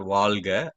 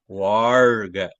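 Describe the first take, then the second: First: The second consonant is an l sound. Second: The second consonant is an r sound. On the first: The speaker calls it wrong. "Not Valga" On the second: The speaker calls it right.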